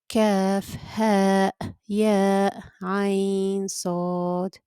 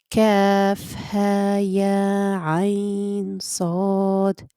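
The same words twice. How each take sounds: First: The letter names end with glottal stops. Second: The letter names end on open vowels. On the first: The speaker calls it wrong. "The incorrect way would be" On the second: The speaker calls it right. "that's the correct way"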